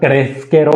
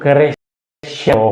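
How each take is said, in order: First: The middle consonant is an 'sk' sound. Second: The middle consonant is a 'sh' sound. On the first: The speaker calls it wrong. "क्रेस्केरो नहीं बन सकता" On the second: The speaker calls it right. "तो क्रेशेरो होगा"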